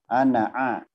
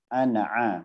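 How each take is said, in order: First: The final vowel of ana is short. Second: The final vowel of ana is short.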